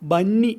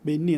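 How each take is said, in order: First: The first vowel is a plain 'a'. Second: The first vowel is an 'e' sound. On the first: This is how the word is written. "ബന്നി എന്നെഴുതും" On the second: This is how the word is actually spoken. "ബെന്നി എന്ന് ഉച്ചരിക്കും"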